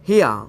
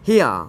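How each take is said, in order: First: The word sounds like 'hia'. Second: The same.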